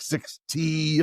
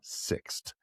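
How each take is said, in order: First: The final T is spoken as a separate letter. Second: The final T blends into a single syllable. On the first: The speaker calls it wrong. "I didn't know if it was like six T" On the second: The speaker calls it right. "no, it's"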